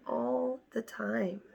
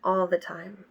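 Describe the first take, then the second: First: Much softer, slowed, drained "All the time"; quiet, slow repeat. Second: Said in the usual way. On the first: Shown as a demonstration. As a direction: let it fade out, worn down. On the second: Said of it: "This was her energy".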